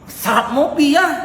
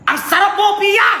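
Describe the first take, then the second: First: It sounds disappointed. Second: It sounds angry.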